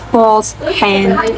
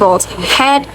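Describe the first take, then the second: First: The word 'had' is reduced to a weak form. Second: The word 'had' is said fully and clearly. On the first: "Balls had a weak form" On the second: "Instead of saying balls had"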